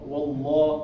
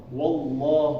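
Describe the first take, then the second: The two takes are said the same way.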